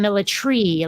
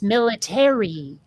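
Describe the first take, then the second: First: The a is dropped, leaving three syllables. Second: All four syllables are pronounced, including the a. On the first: "where did that A go?" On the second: "here in the U S, military"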